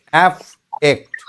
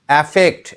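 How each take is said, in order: First: অ্যাফেক্ট slowly, broken after অ্যাফ; slow syllables. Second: Said in the usual way. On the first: Shown as a demonstration. Teacher telling pupil go slowly, slow split syllables. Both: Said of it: "ধীরে ধীরে, আস্তে আস্তে".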